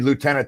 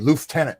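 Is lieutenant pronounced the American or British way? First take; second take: American; British. First: It is said the American way, loo-tenant. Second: It is said the British way, with an f sound. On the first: "They don't say lieutenant" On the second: "listening to the Brits... they say lieutenant"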